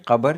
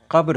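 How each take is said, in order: First: कब्र said as kabar, with an extra vowel between b and r; wrong pronunciation. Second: One clipped syllable, qabr; correct pronunciation. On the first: Urdu teacher shows the common mistake, saying kabar. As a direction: drag it out as ka-bar, two full syllables. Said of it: "कब्र नहीं होता है". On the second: Teacher gives the correct form, saying qabr. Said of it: "कब्र होता है". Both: Shown as a demonstration.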